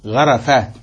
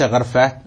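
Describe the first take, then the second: First: غرفات said gharafaat, fatha on the ra; غرفات with a clear a after the r; correct form with fatha. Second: غرفات said gharfaat, ra without a vowel; غرفات with the r run straight into the f; wrong form with silent ra. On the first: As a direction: open the ra in غرفات: gha-ra-faat, set against ghar-faat. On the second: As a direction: close the ra in غرفات: ghar-faat. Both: Shown as a demonstration. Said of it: "ليس غرفات".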